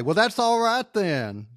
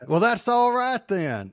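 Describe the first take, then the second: First: Higher, playful villain line; mock the villain's smug catchphrase; quoting the villain. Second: Higher, smug mock quote; quoting the villain again. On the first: Host quotes the villain's smug line to friends, higher and playful. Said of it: "I'm just going to come out and say". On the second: Host relishes the villain's smug catchphrase, pitched up. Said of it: "And then".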